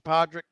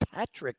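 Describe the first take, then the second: First: The name is said as Podrick. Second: The name is said as Patrick. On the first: The speaker calls it wrong. "not Podrick" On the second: The speaker calls it right. "it's actually Patrick"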